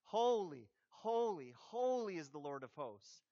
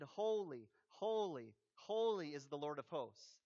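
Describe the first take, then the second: First: Emotional emphasis. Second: Said in the usual way. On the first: Shown as a demonstration. Preacher showing repetition carries emotion, emotional emphasis. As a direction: lean on each "holy" with feeling. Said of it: "But it portrays emotion". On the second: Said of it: "one called to another and said".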